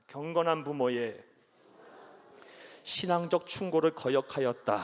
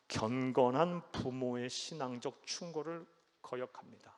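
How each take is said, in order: First: 경건한 and 충고를 given clear weight, louder; emphatic lead line. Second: Said in the usual way. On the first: Shown as a demonstration. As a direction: read it out strongly for all to repeat. (따라 하도록 힘주어 읽기) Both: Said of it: "한번 따라합니다".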